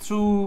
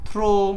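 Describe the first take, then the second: First: It is one syllable ending in an oo sound. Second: It is one syllable ending in an oh sound. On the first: "এই থ্রু থ্রো সব উচ্চারণ হলো ভুল" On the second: "এই থ্রু থ্রো সব উচ্চারণ হলো ভুল"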